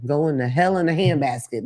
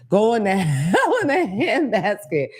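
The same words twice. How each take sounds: First: Said in the usual way. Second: Put-on slow, higher old-timer saying; old person voice. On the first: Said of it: "I heard an old person say". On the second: Quoting an old person, slow old-timer voice. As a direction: drag it out like an old person, laughing. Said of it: "as some old person would say".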